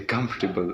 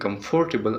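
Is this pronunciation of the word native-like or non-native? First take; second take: native-like; non-native. First: The word is said in a native-like way. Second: The word is said in a non-native way. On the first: The speaker calls it right. "this is how the natives are saying it" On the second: The speaker calls it wrong. "instead of saying comfortable"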